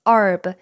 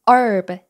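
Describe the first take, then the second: Both takes have the same delivery.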